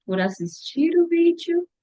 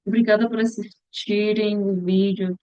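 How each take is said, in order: First: "por assistir o vídeo" lifted high like a question; high, tentative rise through "assistir o vídeo"; questioning self-correction. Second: Said in the usual way. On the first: Real, not acted. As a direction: try out "por assistir o vídeo" as an unsure correction, pitch climbing. Corrects herself, unsure which is right.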